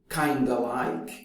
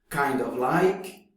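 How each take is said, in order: First: 'Kind of' is run together into 'kinda'. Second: Each word of 'kind of' is said in full.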